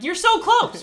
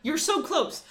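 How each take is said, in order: First: Much higher and louder, a frustrated cry; almost shout it at him; exasperated. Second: Higher but at normal level, pleading; urging. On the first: Telling the oil seller he nearly gets it, an exasperated loud cry. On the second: Repeating to the oil seller he nearly gets it, a calmer urging plea. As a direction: press the point more gently. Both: Retold or imitated. Arguing with the show's guy.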